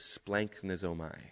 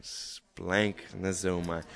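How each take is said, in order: First: Said in the usual way. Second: Splanchnizomai said slowly syllable by syllable, splank-ni-zo-mai; slow teaching pronunciation. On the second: Shown as a demonstration. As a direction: spell it out slowly so the class can repeat Splanchnizomai. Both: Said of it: "Try and say that".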